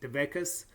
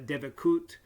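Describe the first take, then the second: First: The word ends with an s sound. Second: The word ends with a t sound. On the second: "In Israeli Hebrew"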